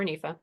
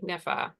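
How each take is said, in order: First: Nifa said NEE-fuh, long ee; long-ee pronunciation. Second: Nifa said NIFF-uh, short i; short-i pronunciation. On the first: Offering the funder's alternative name, nifa as NEE-fuh. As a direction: say nifa with the vowel of "knee". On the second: Naming the project's funder, nifa as NIFF-uh. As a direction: say nifa with the vowel of "sniff". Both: Shown as a demonstration. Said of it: "however you pronounce it".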